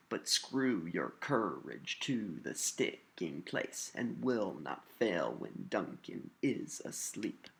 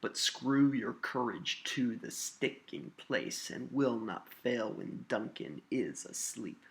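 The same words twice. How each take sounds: First: Slow beat, every second syllable of "But screw your courage" stressed; iambic stress pattern. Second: Said in the usual way. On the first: Shown as a demonstration. Teacher reads with the same pattern, slowly stressing SCREW, COUR, TO, STICK. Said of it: "you can read this with that same pattern". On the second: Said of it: "Let's look at a little more complicated line".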